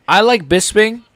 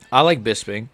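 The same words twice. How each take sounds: First: High, louder take stressing like; mock emphatic. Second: Said in the usual way. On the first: Shown as a demonstration. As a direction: squeal the word like in mock excitement. Repeats the line, higher and louder.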